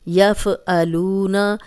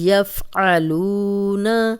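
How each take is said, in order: First: The f is voweled and a glottal stop follows. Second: The f is held and a deep throat sound follows. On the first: The speaker calls it wrong. "एक तो फ़ा हिल गया, दूसरा ये हमज़ा बन गया" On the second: The speaker calls it right. "आइन की क्लियर आवाज़ आनी चाहिए"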